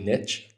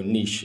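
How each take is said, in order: First: Niche is pronounced the American way. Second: Niche is pronounced the European way. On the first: The speaker calls it wrong. "in the US they say niche, which drives me fucking crazy" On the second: The speaker calls it right. "we're in Europe, so niche is the way you say it"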